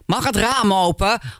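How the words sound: The tone is irritated and annoyed. The speaker finds the listener a nuisance. "De tweede is, wat ben jij een zeikert zeg"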